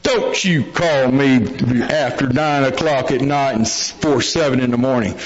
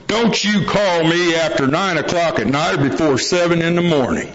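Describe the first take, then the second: First: Put-on copying the old-timer's warning. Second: Lightly voiced old hand's warning; old-timer laying down the law. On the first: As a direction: lightly mimic a veteran's stern rule as your own. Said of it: "I'm looking around, I go". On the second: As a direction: imitate a meeting veteran setting his rule. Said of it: "a guy at a meeting one time, and he goes".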